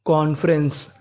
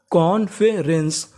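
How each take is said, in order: First: Said in the usual way. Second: "कॉन्फ्रेंस" slowly split as कॉन-फे-रेंस; syllable by syllable. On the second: Shown as a demonstration. Teacher putting कॉन्फ्रेंस together for students, slowly syllable by syllable. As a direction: draw out each part of "कॉन्फ्रेंस". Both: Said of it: "पूरी meaning".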